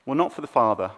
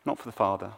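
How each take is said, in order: First: Said in the usual way. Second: Much softer, repeating it quietly to let it sink in; soft echo. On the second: Shown as a demonstration. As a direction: let the line fall away softly.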